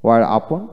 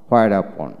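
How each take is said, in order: First: Where in "Where upon" with a plain w; British "wear" in "Where upon"; British pronunciation. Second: Where in "where upon" starting on hw; American "hwear" in "where upon"; American pronunciation. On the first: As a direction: drop the h in Where, ending on a rise. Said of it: "হোয়াইট হলো British". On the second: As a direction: sound the h in where, ending on a fall. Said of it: "হোয়াইট হলো American". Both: Shown as a demonstration.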